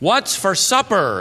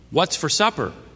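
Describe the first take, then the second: First: It is said very loudly. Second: It is said a little louder.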